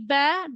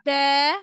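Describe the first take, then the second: First: The vowel is short and not stretched. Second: The vowel is stretched out long. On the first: The speaker calls it right. "always will be Ba" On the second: The speaker calls it wrong. "don't read it Ba"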